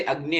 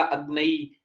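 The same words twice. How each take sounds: First: Said in the usual way. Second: अग्नई said as agnaai, an added vowel before the end; chant-style अग्नई instead of अग्नि; altered Vedic pronunciation. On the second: Shown as a demonstration. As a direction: stretch अग्नि into अग्नई, ending on a long ई. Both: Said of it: "इसको क्या लिख दिया?".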